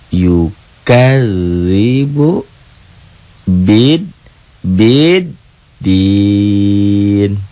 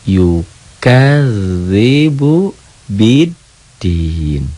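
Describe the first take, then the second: First: The last word is broken into separate pieces. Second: The last word is joined smoothly without breaks. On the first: "Tuh, diputus" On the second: "Sambung tanpa lagu"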